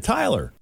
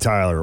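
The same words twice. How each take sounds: First: The name is said in a pleased, positive tone. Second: The name is said in a disappointed, negative tone. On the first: The date went well. "Or is that, oh yeah" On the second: The date went badly. "Is that a negative? Well, like, oh man"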